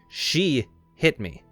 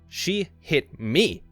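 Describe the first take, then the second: First: The stress falls on the word she. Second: The stress falls on the word me. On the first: The statement becomes an accusation of the hitter. "it puts focus on the hitter" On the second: It was outrageous that she touched this person. "emphasizing the last word"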